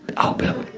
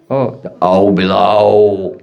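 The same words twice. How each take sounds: First: Soft, voiceless echo of a scary name; hushed spooky whisper. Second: Low, slow, drawn-out bogeyman name; mock-ominous low drone; spooky warning. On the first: Retold or imitated. Bogeyman name repeated in hushed voice. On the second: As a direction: stretch it out ominously to scare a child. Mother scares child with bogeyman.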